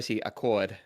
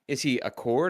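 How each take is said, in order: First: The name is said in a Boston accent. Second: The name is said in a plain, general accent. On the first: He is from Boston. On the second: He is not from Boston.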